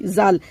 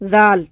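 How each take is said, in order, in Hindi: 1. यह एक सादी, गुंजन वाली z ध्वनि से शुरू होती है। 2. यह एक नरम th ध्वनि से शुरू होती है। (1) "हमारी जबान मुंह के अंदर रहेगी तो सीधी आएगी जाल" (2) "हम जबान दांतों के अंदर लगा देंगे तो आवाज आएगी जाल"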